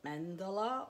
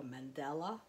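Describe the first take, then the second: First: Mandala said with an open "ah" sound; alternative pronunciation. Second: Mandela stressed on the middle "DELL"; alternative pronunciation. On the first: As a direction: say it "mandala", not like "Mandela". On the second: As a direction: say it "man-DELL-a". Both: Shown as a demonstration. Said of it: "however we say it".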